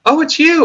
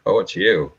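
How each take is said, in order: First: High, bright, thrilled "Oh, it's you."; delighted. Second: Low, flat, let-down "Oh, it's you."; unimpressed. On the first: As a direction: greet the caller with sudden joy. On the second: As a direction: greet the caller with weary disappointment. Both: Shown as a demonstration.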